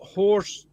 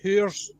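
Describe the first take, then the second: First: The word is said with an American pronunciation. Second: The word is said with a non-American pronunciation. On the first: The speaker calls it wrong. "You're pronouncing it the American way. It's not horse" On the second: The speaker calls it right. "It's hoors"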